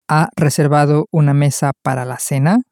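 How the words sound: The voice rises at the end.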